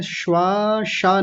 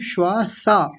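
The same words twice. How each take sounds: First: "श्वासा" slow, as shwaa-shaa; wrong palatal sh. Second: "श्वासा" as shwaa-saa; correct dental s. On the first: Teacher showing what to avoid, shwaa-shaa for "श्वासा". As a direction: stretch "श्वासा" with sh in the second syllable. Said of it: "नहीं". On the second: Teacher correcting student, dental s in "श्वासा". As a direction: give "श्वासा" a clear s in the second syllable. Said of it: "दंत्य सकार है". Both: Shown as a demonstration.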